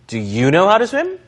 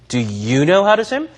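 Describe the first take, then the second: First: The word 'you' carries strong stress. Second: The same.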